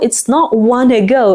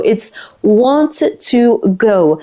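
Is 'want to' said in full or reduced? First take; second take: reduced; full. First: 'Want to' is squeezed into 'wanna'. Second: 'Want to' is said as two full words. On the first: This is how it sounds in natural speech. "native speakers are going to say" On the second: This is how it is written.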